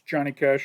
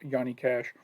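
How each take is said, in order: First: The first name begins with a J sound. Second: The first name begins with a Y sound. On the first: This is how it is said in the States. "It's [name] over here" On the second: This is how it is said in Europe. "the J is pronounced like a Y in in Europe"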